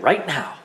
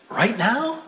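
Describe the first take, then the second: First: Matter-of-fact big-sister answer on "right now"; firm confirmation. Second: "Right now" high and rising; high-pitched childish check on "Right now"; startled question. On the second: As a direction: ask "Right now" as a surprised little kid. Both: Acted.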